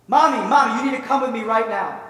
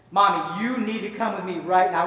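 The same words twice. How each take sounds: First: Put-on loud, high, insistent little girl; urgent child's plea. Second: Firm, measured insistence at usual pitch; insistent child's plea. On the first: Little girl begging her crying mother to come, urgent and excited. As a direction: burst out urgently, tugging mom along. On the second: Acted. Little girl insisting to her reluctant mother, firm and serious. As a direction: press each word, mildly insistent.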